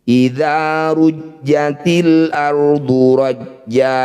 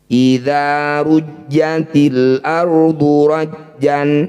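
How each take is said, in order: First: The last word ends with a long vowel. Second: The last word ends with an n sound. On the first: The reading stops at this word. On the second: The reading continues without stopping.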